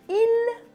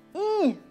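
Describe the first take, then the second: First: The word ends with an audible l sound. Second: The word ends on the vowel, no l sound. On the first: The speaker calls it wrong. "quand on parle, on ne prononce pas il" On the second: The speaker calls it right. "mais i"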